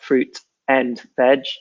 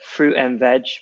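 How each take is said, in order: First: The T in fruit is clearly pronounced. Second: The T is dropped and the words run together. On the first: The speaker calls it wrong. "So it's not fruit and veg" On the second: The speaker calls it right. "we drop the T usually as well ... but fruit and veg altogether"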